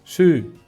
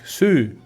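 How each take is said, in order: First: It is said with a drawn-out oo-like vowel. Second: The same.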